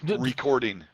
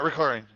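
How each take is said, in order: First: The word is slow with every sound clear. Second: The word is rushed with some sounds dropped. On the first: The speaker calls it right. "It's recording" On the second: The speaker calls it wrong. "It's not recording"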